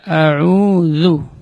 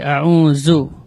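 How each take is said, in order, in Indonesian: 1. Bunyi mirip z diucapkan tanpa napas yang keluar. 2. Bunyi mirip z diucapkan dengan napas yang keluar. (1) "tapi dibaca" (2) "tidak boleh"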